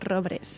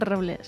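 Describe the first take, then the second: First: The second consonant cluster uses an r sound. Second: The second consonant cluster uses an l sound. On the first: The speaker calls it right. "son robres" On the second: The speaker calls it wrong. "No son robles"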